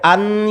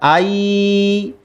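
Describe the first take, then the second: First: The n sound is clearly pronounced. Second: The n sound merges into the following y. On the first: The speaker calls it wrong. "tidak boleh an" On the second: The speaker calls it right. "harus ay dileburkan"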